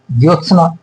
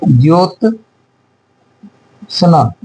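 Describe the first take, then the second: First: Said in the usual way. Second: Jyotsna slowly, long pause between "jyot" and "sna"; broken-up dictation. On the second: Shown as a demonstration. Dictating, word broken into parts.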